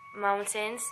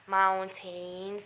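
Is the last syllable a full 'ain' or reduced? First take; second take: reduced; full ain. First: The last syllable is reduced, not like 'maintain'. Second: The last syllable is a full 'ain' like 'maintain'. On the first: The speaker calls it right. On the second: The speaker calls it wrong.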